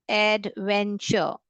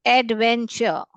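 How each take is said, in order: First: adventure slowly, broken into एड, वेन, चर; syllable-by-syllable dictation. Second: Said in the usual way. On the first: Shown as a demonstration. (Adventure को धीरे-धीरे, हिस्सों में तोड़कर बोलें) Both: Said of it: "three syllable word".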